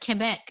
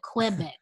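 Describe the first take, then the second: First: Quebec is said without the common American pronunciation. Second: Quebec is said with the common American pronunciation. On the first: The speaker calls it right. "I also love that you are pronouncing it as Quebec because I do too" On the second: The speaker calls it wrong. "ignorant Americans, will call it Quebec"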